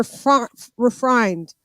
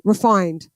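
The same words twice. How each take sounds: First: "refined" with a stray r after the f; slip of the tongue. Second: Said in the usual way. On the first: Real, not acted. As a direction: stumble into "refined" as "refrined". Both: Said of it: "I mean, sorry".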